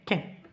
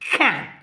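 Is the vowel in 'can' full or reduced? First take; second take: reduced; full. First: The vowel is reduced to a weak schwa. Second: The vowel is full and clearly pronounced. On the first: "weak form يعني شوفوا هذا شوا" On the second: "strong form تاعها عندنا can"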